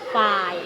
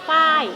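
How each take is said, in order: First: The syllable is said on a low tone. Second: The syllable is said on a falling tone. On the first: "เสียงเอก" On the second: "เสียงโท"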